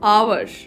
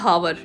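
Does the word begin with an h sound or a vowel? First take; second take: vowel; h sound. First: The word begins with a vowel sound. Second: The word begins with an h sound. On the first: The speaker calls it right. "ਇਹਨੂੰ H ਤਾਂ pronounce ਹੁੰਦੀ ਹੋਈ ਨਹੀਂ ਇਹਦੇ ਵਿੱਚ" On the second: The speaker calls it wrong. "not hour"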